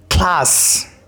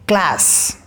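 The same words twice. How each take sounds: First: It is said in a British accent. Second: It is said in an American accent. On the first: "is class in British English" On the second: "And in American, that is class"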